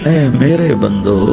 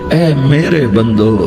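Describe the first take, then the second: Both takes have the same delivery.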